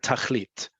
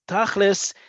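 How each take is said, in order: First: The word ends with a T sound. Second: The word ends with an S sound. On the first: This is the modern Hebrew form of the word. "Tachlit is a Hebrew word"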